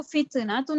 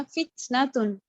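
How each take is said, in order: First: फित्नतुन with an extra little vowel after the first T; wrongly bounced T. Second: फित्नतुन with a small breath on the first T, no vowel; slightly aspirated T. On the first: Teacher showing what she did not read, फित्नतुन with qalqalah on T. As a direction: say फित्नतुन as fit-uh-natun. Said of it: "मैंने इसको फित्नतुन नहीं पढ़ा". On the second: Teacher showing her own reading, फित्नतुन with a lightly aspirated T. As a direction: give the T in फित्नतुन a light "th" puff. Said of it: "थोड़ा सा मैंने थ कर दिया". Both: Shown as a demonstration.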